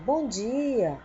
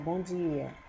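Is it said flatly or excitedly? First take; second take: excitedly; flatly. First: It is said in an excited, exclamatory tone. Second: It is said in a flat, neutral tone.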